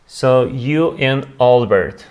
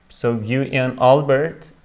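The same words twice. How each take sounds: The two takes are said the same way.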